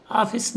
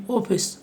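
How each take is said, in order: First: ऑफिस said "aafis" with a flat a; wrong pronunciation. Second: ऑफिस said with ऑ, "ofis"; correct pronunciation. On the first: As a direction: demo the wrong ऑफिस with open a. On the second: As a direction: demo the right ऑफिस with rounded o. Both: Shown as a demonstration. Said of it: "उच्चारण भी अ और ओ के बीच होगा".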